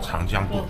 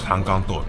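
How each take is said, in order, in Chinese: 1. 中间音节读 jiang。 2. 中间音节读 gang。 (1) "他们叫长江豆" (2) "我们叫长钢豆"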